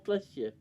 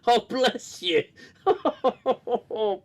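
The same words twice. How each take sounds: First: Said in the usual way. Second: Amused blessing, laughing as he says it; laughing bless you. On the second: Real, not acted. Laughing as he blesses a sneeze.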